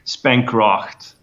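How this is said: The name is said with an English pronunciation. "The English people usually usually say spankracht"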